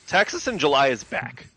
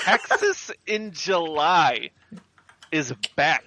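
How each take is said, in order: First: It is said at a normal pace. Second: It is said slowly and deliberately.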